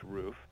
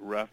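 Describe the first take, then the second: First: The vowel is a long 'oo' sound. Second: The vowel is a short 'uh' sound. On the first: The speaker calls it right. "it's actually pronounced roof" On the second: The speaker calls it wrong. "Some people pronounce it rough"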